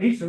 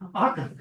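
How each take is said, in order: First: It begins with 'ay' and has a soft c. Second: It begins with 'ah' and has a hard c. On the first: The speaker calls it wrong. "it's not Acer" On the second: The speaker calls it right. "A's are pronounced ah, C's are pronounced hard"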